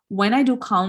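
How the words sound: The words are read together as one chunk. This reading is faster. The speaker calls it right. "read three or four words together"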